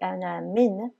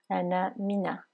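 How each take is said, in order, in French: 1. Le mot min se termine par la consonne n. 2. Une voyelle a supplémentaire suit min. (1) "En fait c'est ana min" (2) "mais avec le mot qui suit, ça fait ana mina"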